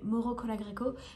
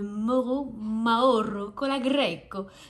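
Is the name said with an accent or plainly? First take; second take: plain; accented. First: The name is said plainly without the foreign accent. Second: The name is said with a put-on foreign accent. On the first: "je vais éviter l'accent" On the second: "je sais pas du tout si ça se dit avec cet accent"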